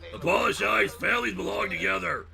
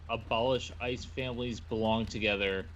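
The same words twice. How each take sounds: First: It is said in a Batman voice. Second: It is said in his normal voice.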